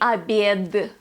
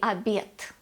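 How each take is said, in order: First: The final consonant is a voiced d. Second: The final consonant is a voiceless t. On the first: The speaker calls it wrong. "We do not say обед" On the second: The speaker calls it right. "We say обед"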